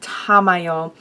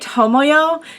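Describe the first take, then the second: First: The first vowel is an 'ah' sound. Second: The first vowel is an 'oh' sound. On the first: The speaker calls it right. "this is the ah sound" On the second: The speaker calls it wrong. "not the o sound"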